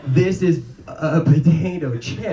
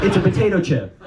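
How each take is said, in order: First: "potato chip" drawn out slowly and higher; odd emphatic inflection. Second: "potato chip" high, quicker, falling at the end; exasperated correction. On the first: Server correcting mom about her snack, odd drawn-out "potato chip". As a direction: spell out "potato chip" slowly with exaggerated weight. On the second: Daughter correcting the way it's said, exasperated falling "potato chip". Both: Retold or imitated. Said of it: "stop saying it like that".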